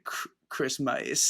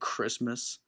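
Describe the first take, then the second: First: The word is said in a dry, strained voice. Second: The word is said in a plain, normal voice. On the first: "they sound like they haven't had water in a while" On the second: "Instead of saying Christmas"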